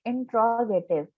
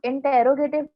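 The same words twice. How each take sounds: First: इंट्रोगेटिव with T and R run together; taught pronunciation. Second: इंटेरोगेटिव with an extra vowel after the T; wrong pronunciation. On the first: Teacher models the word for students, इंट्रोगेटिव said as in-tro-gative. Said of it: "इसको हम पढ़ेंगे". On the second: Teacher shows students the misreading, इंटेरोगेटिव said as inter-ro-gative. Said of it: "नहीं पढ़ेंगे". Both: Shown as a demonstration.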